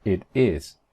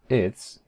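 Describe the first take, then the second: First: "It is" as two separate words; uncontracted "It is"; full form. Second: "its" as one syllable, it's; one-word contraction "its"; contracted form. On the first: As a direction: keep both syllables of "It is". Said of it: "En vez de decir". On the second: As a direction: squeeze "It is" into "its". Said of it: "Este es el que más se usa". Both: Shown as a demonstration.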